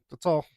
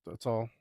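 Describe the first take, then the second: First: High and loud That's all; louder sign-off. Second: Said in the usual way. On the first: Acted. Ending the joke to viewers, higher and louder. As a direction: pop it out with a grin.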